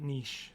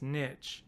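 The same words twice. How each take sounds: First: Niche said as "neesh"; French-style pronunciation. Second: Niche said as "nitch"; short-vowel pronunciation. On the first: Guest questioning his own wording, niche pronounced "neesh". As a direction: say niche with a long ee and soft sh. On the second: Podcast guest describing a band's narrow genre, niche pronounced "nitch". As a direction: say niche to rhyme with "pitch". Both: Shown as a demonstration. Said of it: "or is it niche?".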